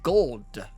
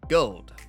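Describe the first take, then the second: First: The L sound is strong and clearly heard. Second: The L sound is weak, barely heard. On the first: "people say you have to emphasize the L" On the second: "As me pronounce it"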